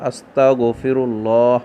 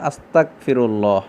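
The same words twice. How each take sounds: First: The middle consonant is a guttural gh sound. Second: The middle consonant is a k sound. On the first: It asks God for forgiveness. The speaker calls it right. "সঠিকভাবে বাক্যটি উচ্চারণ করব, গয়নের উচ্চারণ করব" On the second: It asks God to make the speaker a disbeliever. The speaker calls it wrong. "গয়নের জায়গাত কাফের উচ্চারণ করে"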